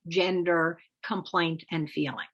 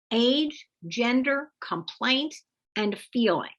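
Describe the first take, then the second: First: Said in the usual way. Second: Each word lifted high and rising: "age", "gender", "complaint", then "feeling" falling; stressed list. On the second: Shown as a demonstration. Teacher flagging the slots to fill in, with stressed rises. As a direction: mark every slot in the template with a rising lift.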